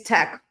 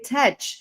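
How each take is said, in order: First: The word starts with a 'k' sound. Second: The word starts with a 'ch' sound. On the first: The speaker calls it right. "tech is k. It's tech" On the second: The speaker calls it wrong. "a lot of people say tech"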